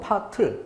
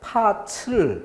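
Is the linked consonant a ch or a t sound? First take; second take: t; ch. First: The linked consonant is a t sound. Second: The linked consonant is a ch sound. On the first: The speaker calls it right. "파틀 그대로 넘겨주기만 하면 되는데" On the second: The speaker calls it wrong. "이렇게 잘못된 발음"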